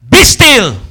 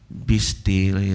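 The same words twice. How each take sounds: First: It is said loudly and forcefully. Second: It is said softly and gently. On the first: The speaker calls it right. "Jesus stood up with a strong voice" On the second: The speaker calls it wrong.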